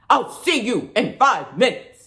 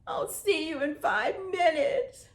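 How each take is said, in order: First: The line is spoken in an angry voice. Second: The line is spoken in a sad voice. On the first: "Now how about angry?" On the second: "Now be sad"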